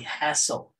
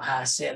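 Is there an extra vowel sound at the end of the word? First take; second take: no; yes. First: It ends cleanly on the L sound. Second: An extra E vowel is added after the L. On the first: The speaker calls it right. "it should be hassle" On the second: The speaker calls it wrong. "may extra E o hassle"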